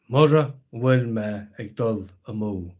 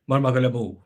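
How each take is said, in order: First: Each word is said separately and fully. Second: The words are run together quickly and shortened.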